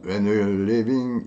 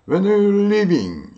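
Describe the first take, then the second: First: Slow, ending falls flat and sure; falling, certain tone. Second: Slow and high, curious, ending lifted; curious rising tone. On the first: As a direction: end it down, like you already know. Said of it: "이렇게 묻는 거고". (끝을 내려 단정 짓듯이) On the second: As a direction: ask it like you really want to know. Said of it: "이렇게 끝을 올려도 되는 거예요". (궁금한 듯 끝을 올려서) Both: Shown as a demonstration.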